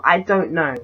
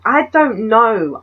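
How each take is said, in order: First: Said in the usual way. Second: Slow, louder, higher "I don't know"; emphatic I don't know. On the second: Shown as a demonstration. Her bewildered at the man's motives, slow emphatic "I don't know". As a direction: drag out "I don't know" with force.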